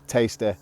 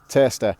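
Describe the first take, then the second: First: The first vowel is said the Manchester way. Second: The first vowel is said the Wigan way. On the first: "When you go to central Manchester, ... they say" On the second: "here in Wigan, Ramon, we pronounce the word tasty like that"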